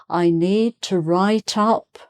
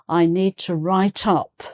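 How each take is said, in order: No difference in how they are said.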